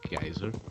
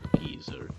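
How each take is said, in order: First: It is said the way his native language says it. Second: It is said the way UK speakers say it. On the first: "that's how it's pronounced in my language" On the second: "apparently the U K pronounces it geyser"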